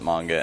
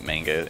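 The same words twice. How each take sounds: First: It is said with the Japanese pronunciation. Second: It is said with the English pronunciation. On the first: The speaker calls it right. "I try to pronounce it manga" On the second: The speaker calls it wrong. "I didn't know better when I was a kid and pronounced it manga"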